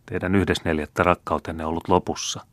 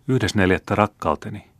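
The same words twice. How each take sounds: First: Said in the usual way. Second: Higher, astonished repeat of "Yhdes neljättä"; incredulous echo. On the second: A narrator's reading. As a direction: throw the words back in disbelief.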